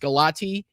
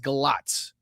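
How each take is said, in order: First: The name ends with an 'ee' sound. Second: The name ends with a 'ts' sound. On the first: The speaker calls it wrong. "it looks like it's Galati" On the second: The speaker calls it right. "I believe it's Galatz, the way that it's pronounced"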